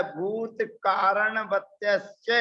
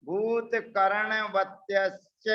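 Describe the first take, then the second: First: Slow "कारणवत्यश्च" with a long आ in "का"; misprinted reading. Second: Slow "कर्णवत्यश्च" with short "कर्ण", no long आ; correct reading. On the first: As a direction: read "भूत कारणवत्यश्च" as printed, stretching "कारण". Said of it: "ऐसा सूत्र में छपा हुआ है". ("कारणवत्यश्च" लंबे आ के साथ, जैसा छपा है) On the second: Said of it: "कारण नहीं पढ़ना है". ("कर्ण" छोटा, बिना आ के, धीरे-धीरे) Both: Shown as a demonstration.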